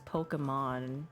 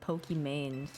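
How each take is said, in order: First: The name ends like the word Pokemon. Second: The name ends with a 'main' sound. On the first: This is the name's intended pronunciation. "that was her intention with her name" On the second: This is how most people say the name. "everyone pronounced it Pokimane"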